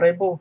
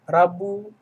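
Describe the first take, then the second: First: The first vowel is an 'e' sound. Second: The first vowel is an open 'a'. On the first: The speaker calls it wrong. "bukan Rebo" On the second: The speaker calls it right. "Rabu jadi bukan Rebo"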